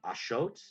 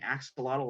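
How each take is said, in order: First: It is said with the Nahuatl pronunciation. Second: It is said with the American English pronunciation. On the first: The speaker calls it right. "the actual Nawat pronunciation is um Ashot" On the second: The speaker calls it wrong. "we've been saying axolotl wrong the whole time"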